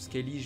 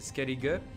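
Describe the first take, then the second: First: The name is pronounced the French way. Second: The name is pronounced the English way. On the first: "en français, on prononce Skellige" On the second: "dans la version anglaise du jeu, c'est Skellige"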